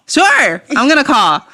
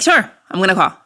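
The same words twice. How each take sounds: First: Higher, overdone mock assurance; emphatic stalling. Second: Easy, noncommittal mock assurance; casual stalling. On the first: Pressed by ex to call, stalling with emphatic assurance. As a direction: insist brightly while putting it off. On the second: Agreeing with ex to call while stalling, casual. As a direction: put them off casually.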